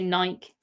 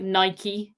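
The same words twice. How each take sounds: First: It is said in a British accent. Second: It is said in an American accent. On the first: "We just say Nike" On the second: "Americans say like Nike"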